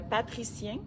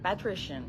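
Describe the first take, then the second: First: The ending sounds like French 'magicien'. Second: The ending sounds like English 'patrician'. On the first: The speaker calls it wrong. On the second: The speaker calls it right.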